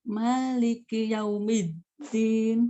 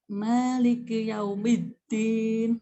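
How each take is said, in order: The two takes are said the same way.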